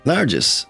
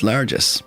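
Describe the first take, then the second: First: It is said 'largesse', ending in an s. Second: It is said 'largesse', ending in an s.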